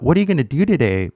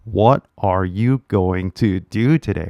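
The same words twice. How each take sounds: First: Fast, "What are you gonna" slurred together; fast casual speech. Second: Every syllable of "going to" spelt out; textbook careful English. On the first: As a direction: rattle it off like a native. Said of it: "might sound really fast to your ear". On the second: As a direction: read it like a stiff textbook line. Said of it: "because you're so used to". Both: Shown as a demonstration.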